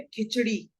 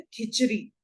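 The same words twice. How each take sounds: First: खिचड़ी with a flapped retroflex ड़; खिचड़ी with ड़, not र; correct pronunciation. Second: खिचड़ी as "khichri", with plain र; wrong pronunciation. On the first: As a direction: curl the tongue back for the ड़ in खिचड़ी. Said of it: "जैसे शब्द है". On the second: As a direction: replace the ड़ of खिचड़ी with r. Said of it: "गलत उच्चारण से इसे बोल दिया". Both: Shown as a demonstration.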